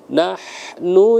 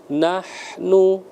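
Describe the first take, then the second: No difference in how they are said.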